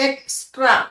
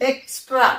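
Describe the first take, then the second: No difference in how they are said.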